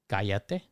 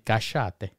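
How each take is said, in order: First: It is said in neutral Spanish. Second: It is said with an Argentinian accent.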